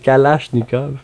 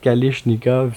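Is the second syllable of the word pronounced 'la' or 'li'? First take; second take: la; li. First: The second syllable has an 'ah' vowel. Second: The second syllable has an 'ee' vowel. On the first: The speaker calls it right. "c'est Kalachnikov" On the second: The speaker calls it wrong. "C'est pas ça du tout"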